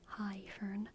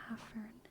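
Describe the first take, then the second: First: The first vowel sounds like 'high'. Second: The first vowel sounds like 'ah'. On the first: The speaker calls it wrong. "without the ash would be pronounced like high fern" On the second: The speaker calls it right. "because it's an ash, it's pronounced ah"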